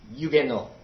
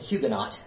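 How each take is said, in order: First: Neither the opening H nor final T is sounded. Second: Both the opening H and final T are sounded. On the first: This is the French pronunciation. "In French, it's Huguenot. And the H is silent and the T is silent" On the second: This is the American habit. "break my Americanism and stop saying Huguenot"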